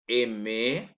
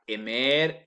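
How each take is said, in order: First: The final R is silent at the end. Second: The final R is pronounced at the end. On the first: The speaker calls it right. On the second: The speaker calls it wrong. "je ne dis pas aimer"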